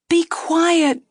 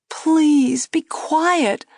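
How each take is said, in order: First: High, loud sharp plea; anxious hush. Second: High plea falling into a whisper; urgent whisper. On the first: Girl anxiously silencing the dummy. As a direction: shut him up fast. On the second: Girl begging the dummy to hush. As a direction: hush him, embarrassed. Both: A narrator's reading. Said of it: "the girl said".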